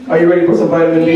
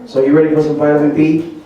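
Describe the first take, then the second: First: Fast, louder hype-up question; hyped crowd call. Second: Said in the usual way. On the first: Shown as a demonstration. Cook hyping the audience for vitamin B, fast and louder. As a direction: pump up the audience like a game host.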